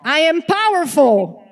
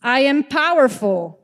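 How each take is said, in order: First: Shouted affirmation, all in; like your life depends on it; full-out shout. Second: Stronger, louder affirmation. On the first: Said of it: "like your life depends on it". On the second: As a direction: say it like you mean it. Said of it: "One more time". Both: Shown as a demonstration.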